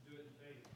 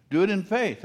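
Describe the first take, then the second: First: Whispered, almost no voice. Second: Said in the usual way. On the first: Real, not acted. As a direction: breathe the words out as a hush. Preacher repeats his own advice.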